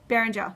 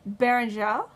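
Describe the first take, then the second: First: The name is said with a plain Australian accent. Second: The name is said with an attempted French accent. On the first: "if that person lived in Australia, it would be Caillou Beranger, because we're not fancy" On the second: "I can't do a French accent"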